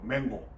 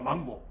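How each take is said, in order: First: The first vowel is a front 'ae' sound. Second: The first vowel is an open 'ah' sound. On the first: The speaker calls it right. "원래 발음은 맹고래" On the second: The speaker calls it wrong. "망고가 아니고"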